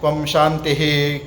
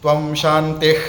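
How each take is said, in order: First: The final h sound is fully pronounced. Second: The final h sound is dropped. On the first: The speaker calls it right. "पूर्ण उच्चारण करने के बाद में ही" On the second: The speaker calls it wrong. "त्वम शांति ऐसा नहीं बोलना है"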